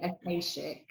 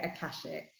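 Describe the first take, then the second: First: Akashic with long a, a-KAY-shic; pronounced Akashic. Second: Akashic with short a, a-KASH-ic; pronounced Akashic. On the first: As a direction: say Akashic with an ay sound. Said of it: "Some people say Akashic". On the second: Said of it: "I say it Akashic". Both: Shown as a demonstration.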